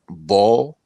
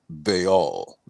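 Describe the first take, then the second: First: The name is said as one syllable. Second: The name is said as two syllables. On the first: The speaker calls it wrong. "some people have pronounced it" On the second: The speaker calls it right. "but it is pronounced"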